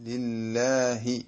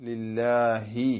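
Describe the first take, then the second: No difference in how they are said.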